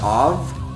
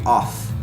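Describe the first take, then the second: First: The word ends with a V sound. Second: The word ends with an F sound. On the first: The speaker calls it wrong. "everyone pronounce it ov with a V" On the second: The speaker calls it right. "It's supposed to be off, like a F"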